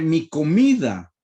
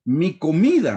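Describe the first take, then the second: First: "mi comida" drawn out slowly, each syllable weighed; slow emphasis. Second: Said in the usual way. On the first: Shown as a demonstration. Preacher repeating the verse for the congregation, slow and deliberate. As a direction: slowly lean on "mi comida" to make them notice.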